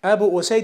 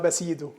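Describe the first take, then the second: First: The name is said as 'Abu Usayd'. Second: The name is said as 'Abasidu'. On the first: The speaker calls it right. "أبو أسيد الساعدي رضي الله عنه" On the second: The speaker calls it wrong. "أصبح اسمه أباسيدو"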